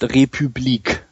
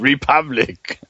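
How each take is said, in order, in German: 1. Das Wort wird auf französische Art ausgesprochen. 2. Das Wort wird auf englische Art ausgesprochen. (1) "Das heißt Republik" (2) "Also ganz bestimmt nicht Republic"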